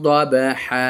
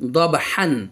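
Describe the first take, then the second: First: The word ends on a long vowel. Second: The word ends with an n sound. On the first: "দেখেন তানবিন পড়লাম না" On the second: "হা আলিফ দিয়ে যাবার হান"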